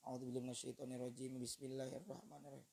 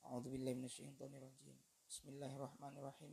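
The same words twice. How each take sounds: First: The two phrases run together without a pause. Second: A clear pause separates the two phrases.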